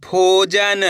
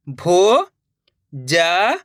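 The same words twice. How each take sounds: First: Said in the usual way. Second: भोजन stretched very slowly, syllable by syllable; drawn-out syllables. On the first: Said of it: "तो मिलके बन जाएगा". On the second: Shown as a demonstration. Teacher sounding out भोजन for pupils, very slowly. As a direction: pull भोजन apart sound by sound. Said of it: "अब आगे देखिए".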